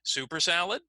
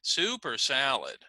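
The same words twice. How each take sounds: First: "Super salad" rising at the end; letter B tune. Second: "Super salad" falling, stress on "Super"; letter A tune. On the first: Teacher modelling choice B for the students. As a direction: let "Super salad" rise on "salad". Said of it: "listen to letter B again". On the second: Teacher modelling choice A for the students. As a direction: fall after "Super salad". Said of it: "That would be letter A". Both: Shown as a demonstration.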